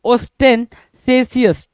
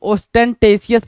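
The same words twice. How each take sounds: First: Ostentatious as os-ten-say-si-us, slowly; "-sesious" pronunciation. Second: Ostentatious with a t, os-ten-tay-si-us; "-tesious" pronunciation. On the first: Teacher repeats the word for students, ostentatious slowly as os-ten-say-si-us. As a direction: draw out ostentatious with "say" in place of "tay". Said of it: "सेसियस पढ़ते हैं इसको". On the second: Teacher gives the other accepted reading, ostentatious as os-ten-tay-si-us. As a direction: say ostentatious with "tay" as third syllable. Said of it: "कुछ लोग ostentatious भी पढ़ते हैं". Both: Shown as a demonstration.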